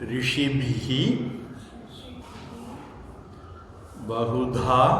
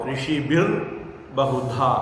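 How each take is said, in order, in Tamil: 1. முதல் சொல் மூச்சொலி h ஒலியுடன் முடிகிறது. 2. முதல் சொல் r ஒலியுடன் முடிகிறது.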